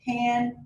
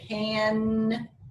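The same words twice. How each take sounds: First: The word is said at normal length. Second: The word is drawn out and stretched.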